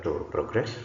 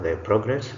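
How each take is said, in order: First: To proGRESS, verb stress; stress on second syllable. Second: The PROgress, noun stress; stress on first syllable. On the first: Teacher reads the bold verb, second-syllable stress on "progress". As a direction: hit "gress" in "to progress". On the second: Teacher reads the bold noun, first-syllable stress on "progress". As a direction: hit "pro" in "the progress". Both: Shown as a demonstration. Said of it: "emphasis is going to be on the words".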